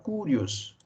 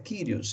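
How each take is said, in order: First: The first syllable sounds like 'coo'. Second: The first syllable sounds like 'kee'. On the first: This is how people without basic Greek tend to say it. The speaker calls it wrong. "quem não tem o conhecimento básico do grego tem a tendência de pronunciar curios" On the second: This is the correct transliterated pronunciation. The speaker calls it right. "a pronúncia correta na transliteração de Senhor"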